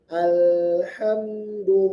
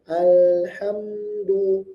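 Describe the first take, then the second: No difference in how they are said.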